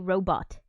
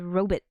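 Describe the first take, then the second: First: The last syllable sounds like 'bot'. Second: The last syllable sounds like 'bit'. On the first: This is the current pronunciation. "Now we say robot" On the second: This is an older pronunciation. "they said robot, like B I T"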